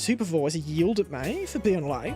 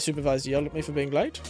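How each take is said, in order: First: It is said in a put-on comic character voice. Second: It is said in the speaker's normal voice.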